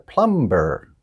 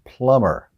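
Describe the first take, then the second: First: The B in the word is sounded. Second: The B in the word is silent. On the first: The speaker calls it wrong. "the wrong word was plumber" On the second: The speaker calls it right. "it's pronounced plumber. The B is silent"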